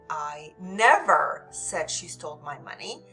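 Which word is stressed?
never. The stress falls on the word never. The speaker absolutely did not say it. "This is absolutely did not say it"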